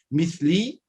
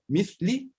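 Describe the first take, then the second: First: The final vowel is drawn out long. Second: The final vowel is short. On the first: It means homosexual. "Mithli é homossexual" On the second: It means like me. "mithli é igual a mim"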